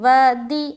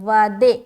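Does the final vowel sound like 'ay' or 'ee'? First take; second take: ee; ay. First: The final vowel is a clear 'ee' sound. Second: The final vowel is an 'ay' sound. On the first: The speaker calls it right. "जेर में भी मारूफ का ख्याल रखेंगे" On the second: The speaker calls it wrong. "बाज़ औक़ात लोग वादे पढ़ते हैं, गलत है"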